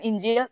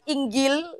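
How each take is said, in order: First: The middle consonant is a J sound. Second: The middle consonant is a hard G sound. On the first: This is the non-Egyptian way of saying it. "bukan Injil" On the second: This is the Egyptian way of saying it. "Kalau Mesir Inggil"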